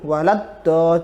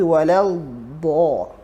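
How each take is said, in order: First: The consonant is said quickly and cut short. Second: The consonant is drawn out and lengthened. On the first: The speaker calls it wrong. "jangan terburu-buru. Walad do, jangan" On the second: The speaker calls it right. "tapi walal do"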